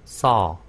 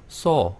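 First: The vowel is an open aw sound. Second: The vowel is a tight rounded o sound. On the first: The speaker calls it right. "봤다라고 할 때는 saw" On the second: The speaker calls it wrong. "잘못 발음하면 saw"

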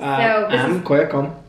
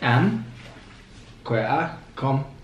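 First: The phrase is said at a normal pace. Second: The phrase is said slowly.

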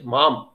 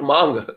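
First: The word ends with an m sound. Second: The word ends with an ng sound. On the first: The speaker calls it right. "It is mam, cross me over" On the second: The speaker calls it wrong. "Ma is not that mangi lung mang, not mang"

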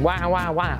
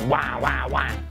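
First: A plain, clear baby cry sound. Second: A rough, growly baby cry sound. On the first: This is how babies usually cry. "Rather than going" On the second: This cry comes from a vocal cord problem. "I would go"

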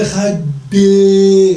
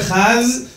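First: The word ends with an added vowel after d. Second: The word ends with a z sound. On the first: "ולא אחד די, מה זה אחד די?" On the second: "אין לא אחז"

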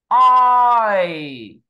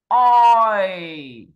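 The two takes are said the same way.

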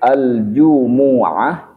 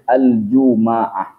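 First: The m is followed by a u vowel. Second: The m is followed by an a vowel. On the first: "mimnya menggunakan dhammah" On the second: "mimnya difathahkan"

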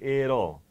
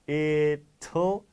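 First: The middle consonant is a soft D sound. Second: The middle consonant is a clear T sound. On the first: "The T changes into a D" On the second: "The T changes into a D"

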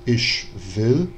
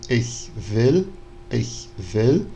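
First: The ch is a hushing sh sound. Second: The ch is a soft palatal hiss. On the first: This follows an old theatrical style of pronunciation. "que ele fala ich will, né? Ele faz o chiado" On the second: This is the current standard pronunciation. "como a gente pronuncia hoje em dia"

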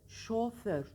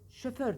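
First: The first syllable has an o vowel. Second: The first syllable has a vowel other than o. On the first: The speaker calls it right. "doğrusu şoför. Şoför. O ile" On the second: The speaker calls it wrong. "Şoför denir"

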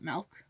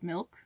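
First: The vowel sounds close to an 'a'. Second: The vowel sounds like a plain 'i'. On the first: This is the speaker's own habitual way of saying it. "I call it Milk ... just naturally ... I know there's no A in it" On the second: This is the usual way others say it. "instead of Milk"

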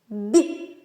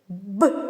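First: The consonant is soft, palatalized. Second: The consonant is hard, without palatalization. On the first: "А м'який як буде?" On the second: "Твердий"

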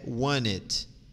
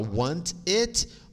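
First: The two words run together, American style. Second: The two words are said more separately and carefully. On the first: "num jeito mais americanizado" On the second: "a gente pode falar want it"

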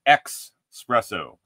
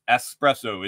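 First: It is said with an x sound, like expresso. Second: It is said with an s sound, like espresso. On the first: The speaker calls it wrong. "it's not espresso. ... Just keep the X out of espresso" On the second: The speaker calls it right. "it's espresso. It's spelled E-S-P-R-E-S-S-O"

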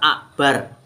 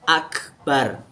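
First: A glottal stop replaces the k sound. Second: A clear k sound comes before 'bar'. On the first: The speaker calls it wrong. "banyak yang baca akbar ... pakai hamzah ... Itu tentu salah" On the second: The speaker calls it right. "Yang benar pakai kaf"

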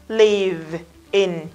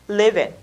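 First: The two words are said separately. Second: The two words are linked into one. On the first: "đọc rời của nó ra là live in" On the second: "khi nối âm nó là living, nhanh không?"

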